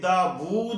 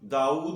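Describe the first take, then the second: First: A clear v sound separates the vowels. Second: The vowels run together with no v sound. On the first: The speaker calls it right. "ये दावूद है" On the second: The speaker calls it wrong. "ये गलत बोलते हैं, इसका तलफ़ुज़ ये नहीं है, दाऊद नहीं है"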